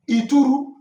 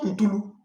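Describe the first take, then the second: First: Ituru said loudly with an r sound; correct Obio word. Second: Ntulu cited loudly, with an l sound; wrong dialect word. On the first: Teacher giving Obio people the word for nail, correct word Ituru. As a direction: present Ituru firmly as the proper word. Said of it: "in the Obio dialect is". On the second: Teacher correcting Obio people on nail, wrong word Ntulu. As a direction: reject Ntulu as the mistaken form. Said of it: "not Ntulu". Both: Shown as a demonstration.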